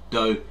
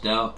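First: It is said with a Cantonese pronunciation. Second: It is said with a Mandarin pronunciation. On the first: "Do in Cantonese" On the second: "pronounced Dao in Mandarin"

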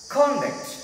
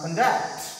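First: The stress is on the first syllable. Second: The stress is on the second syllable. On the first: The speaker calls it right. "Conduct means first part is stress" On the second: The speaker calls it wrong. "It's not conduct"

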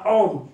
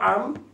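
First: The vowel is pronounced like o. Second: The vowel is pronounced like a. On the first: The speaker calls it right. "אנחנו הוגים אותה עום, בקמץ" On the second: The speaker calls it wrong. "ולא עם"

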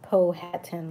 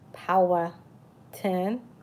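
First: The first syllable sounds like a short 'pow'. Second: The first syllable sounds like 'power'. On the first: The speaker calls it wrong. "like a lot of people saying" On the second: The speaker calls it right. "more like power, like power plant"

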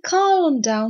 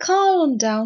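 First: The L in calm is pronounced. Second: The L in calm is pronounced.

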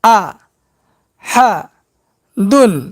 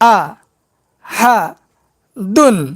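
Both takes have the same delivery.

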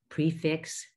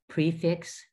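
Both takes have the same delivery.

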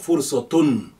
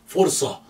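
First: The word ends with a final 'tun' syllable. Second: The word ends without a final 'tun' syllable. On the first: "if that tun is there, you may or may not pronounce it" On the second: "You may hear people say fursa without a tun at the end"

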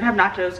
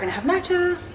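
First: It is said in a plain, normal speaking voice. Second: It is said with a put-on influencer inflection.

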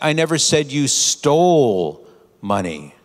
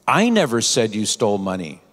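First: The stress is on the word stole. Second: The stress is on the word I.

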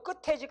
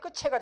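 First: The consonant before the vowel sounds like t. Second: The consonant before the vowel sounds like ch. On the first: The speaker calls it right. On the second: The speaker calls it wrong.

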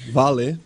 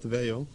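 First: The name is said the Brazilian Portuguese way. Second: The name is said the English way. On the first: The speaker calls it right. "You got it right" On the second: The speaker calls it wrong. "not Vale"

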